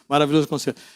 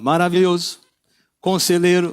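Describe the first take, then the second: First: The two words run together without a pause. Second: There is a pause between the two words.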